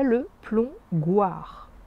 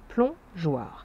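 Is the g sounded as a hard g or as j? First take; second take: hard g; j. First: The g is pronounced as a hard g. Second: The g is pronounced as a j sound. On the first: The speaker calls it wrong. "Sinon, ça ferait le plongoir" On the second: The speaker calls it right. "le G se prononce J"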